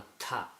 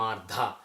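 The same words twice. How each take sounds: First: "Artha" with an aspirated t, "tha"; breathy t, no d; correct "tha". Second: "Artha" said as "arda" with a d; wrong "dha" sound. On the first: Shown as a demonstration. Teacher gives the correct Artha with aspirated t. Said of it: "It should be". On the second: Retold or imitated. Teacher imitates South Indian priests saying Artha wrong. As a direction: swap the tha for a plain d. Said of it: "they say".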